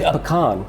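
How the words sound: It is said in the Southern American way. "In the South, ... we say pecan"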